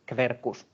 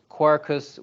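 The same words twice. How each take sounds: First: The qu is sounded as kv. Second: The qu is not sounded as kv.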